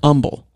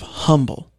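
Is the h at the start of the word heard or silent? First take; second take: silent; heard. First: The word starts without an h sound. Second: The word starts with an h sound. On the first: "the appropriate H would be silent" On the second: "instead of"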